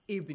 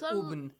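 First: The word begins with an i vowel. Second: The word begins with a u vowel. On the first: The speaker calls it right. "you say with kasra" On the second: The speaker calls it wrong. "You don't say Ubn"

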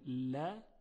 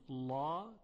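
First: The l sound is light and thin. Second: The l sound is heavy and thick. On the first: The speaker calls it right. "لا ترقیق شده، یعنی صدا نازک و ظریفه" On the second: The speaker calls it wrong. "هیچ وقت نمیگوییم لا چون لا تفخیم شده"

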